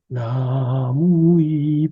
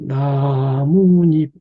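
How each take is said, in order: First: No n sound is added before the final syllable. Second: An n sound is added before the final syllable. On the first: "사이시옷을 안 하면요 ... 더 소리는 부드러워져요" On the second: "요게 나뭇잎"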